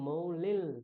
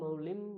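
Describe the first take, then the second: First: The word ends in a nasalized l sound. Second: The word ends in an m sound. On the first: The speaker calls it right. "মৌলিল নাসার" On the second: The speaker calls it wrong. "মৌলিং বা মৌলিম বলছি না"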